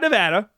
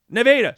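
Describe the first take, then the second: First: Nevada is said the usual way, like the state. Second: Nevada is said the local way of the town. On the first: It names the western US state. "Not Nevada" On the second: It names the small city in Iowa. "we have a city in Iowa right next to Ames called Nevada"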